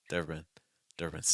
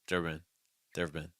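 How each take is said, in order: No difference in how they are said.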